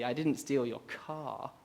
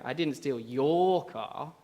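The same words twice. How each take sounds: First: The stress is on the word car. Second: The stress is on the word your.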